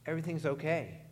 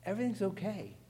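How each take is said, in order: First: Said in the usual way. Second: Everything's okay with Everything's lifted high; lifted repeat. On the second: Shown as a demonstration. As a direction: repeat it pitched well higher, emphatic.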